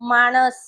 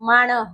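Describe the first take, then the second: First: The word ends with an s sound. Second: The word ends with an h sound. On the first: This is the standard form. "લખવાનું છે માણસ" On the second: This is the rural dialect form. "આ તમને તળપદા શબ્દમાં પૂછાય"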